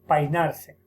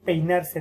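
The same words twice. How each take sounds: First: The vowel sounds are changed from the standard. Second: The vowels are pronounced in the standard way. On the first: The speaker calls it wrong. "alteraciones vocálicas" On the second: The speaker calls it right. "En vez de decir"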